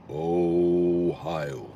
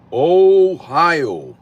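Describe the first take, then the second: First: Low, long-held Ohio; drawn-out low echo. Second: High, loud, stretched-out Ohio; drawn-out call-out. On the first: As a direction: stretch it out deep and level. Same word again, dropped low. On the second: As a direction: call it out big, swooping up and falling. Playful repeated call-out of Ohio. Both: Real, not acted.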